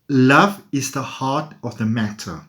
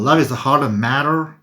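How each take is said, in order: First: It is said in the speaker's own accent. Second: It is said in a put-on American accent.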